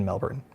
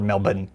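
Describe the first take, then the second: First: Said in the usual way. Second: "Melbourne" Australian-style as MEL-bun; Australian pronunciation. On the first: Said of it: "or Melbourne, as I will learn". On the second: Shown as a demonstration. Host offering the local version, Australian-style Melbourne. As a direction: say "Melbourne" with no R, second syllable reduced. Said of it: "as I will learn in a moment".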